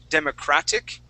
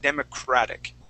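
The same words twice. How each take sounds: First: The t is said as a crisp T. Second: The t is said as a soft D. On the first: The speaker calls it wrong. "instead of saying democratic" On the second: The speaker calls it right. "that T turning into a D sound"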